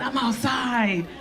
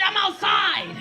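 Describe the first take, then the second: First: Outside drawn out slowly, lower; slow, dropped-down take. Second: Shouted. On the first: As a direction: stretch it out slowly and low. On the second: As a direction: yell it to the crowd. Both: Shown as a demonstration.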